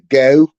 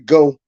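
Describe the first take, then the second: First: The vowel has a Pittsburgh-style accent. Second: The vowel is a plain standard American one. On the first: "they say go" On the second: "They don't say go"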